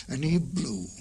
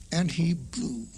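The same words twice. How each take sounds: The two takes are said the same way.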